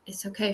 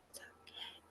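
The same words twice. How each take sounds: First: Softly voiced, careful reassurance; quiet retold comfort, voiced rather than whispered; gently reassuring. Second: Barely audible whisper, imitating her; hushed, gentle whispered imitation of a team leader; soft, careful reassurance. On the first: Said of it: "She was reassuring me". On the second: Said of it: "she was just softly, carefully saying".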